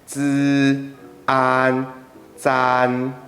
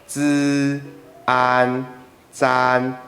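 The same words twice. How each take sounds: No difference in how they are said.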